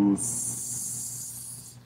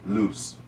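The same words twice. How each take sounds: First: The word is said slowly, drawn out. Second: The word is said quickly.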